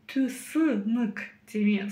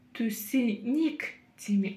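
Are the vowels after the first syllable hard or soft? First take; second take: hard; soft. First: The middle vowels sound hard, like ы. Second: The middle vowels sound soft, like и. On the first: "пробуем прочитать через «ы»... Слишком твердо" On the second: "Пробуем прочитать через «и»... чересчур мягко"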